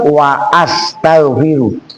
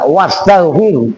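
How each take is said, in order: First: A glottal stop separates wa from astaghfiru. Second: Wa runs into astaghfiru with no glottal stop. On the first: The speaker calls it right. "tetap wa astaghfiru" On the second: The speaker calls it wrong. "enggak wastaghfiru"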